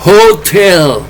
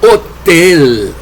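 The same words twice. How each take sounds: First: Hotel with a sounded H, like Spanish J; American pronunciation. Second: Hotel with a silent H, starting straight on the O; British pronunciation. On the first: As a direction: breathe out a clear H at the start of hotel. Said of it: "En inglés de Estados Unidos se dice". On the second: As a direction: drop the H in hotel, as in England. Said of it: "En inglés de Inglaterra se pronuncia". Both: Shown as a demonstration.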